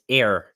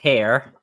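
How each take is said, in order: First: The word starts without an h sound. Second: The word starts with an h sound. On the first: "it's ear" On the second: "instead of here"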